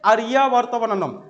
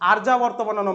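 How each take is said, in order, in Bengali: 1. প্রথম শব্দে তিনটি দল আছে, a-ri-ya। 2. প্রথম শব্দে দুটি দল আছে, ar-ya। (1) "আরিয়া উচ্চারণ করতে হবে" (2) "আর্যা বার্তাবানানম নয়"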